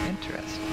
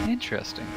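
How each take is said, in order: Both takes have the same delivery.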